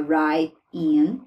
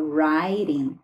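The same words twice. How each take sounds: First: Right in said with the t dropped. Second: Right in with the t as a quick r; flapped t in right. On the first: Teacher shows right in without the t. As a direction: drop the t in right before in. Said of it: "A gente pode omitir o T". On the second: Teacher shows right in with a flapped t. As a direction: turn the t in right into a flap. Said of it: "transformar esse T num som de R". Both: Shown as a demonstration.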